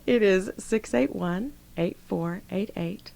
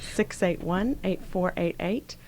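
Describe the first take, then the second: First: The number is said slowly. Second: The number is said fast.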